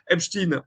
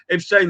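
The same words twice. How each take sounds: First: The name is pronounced the American way. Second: The name is pronounced the French way. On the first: "Epstein en Allemagne ou aux États-Unis" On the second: "Epstein en France"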